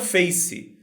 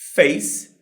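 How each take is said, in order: First: It ends with an extra vowel sound. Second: It ends on the final consonant sound. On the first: The speaker calls it wrong. "e não" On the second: The speaker calls it right. "A palavra termina na consoante"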